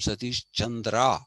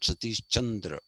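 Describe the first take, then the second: First: The final 'a' vowel is pronounced. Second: The final 'a' vowel is dropped. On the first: The speaker calls it right. "I tell them I'm Satish Chandra" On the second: The speaker calls it wrong.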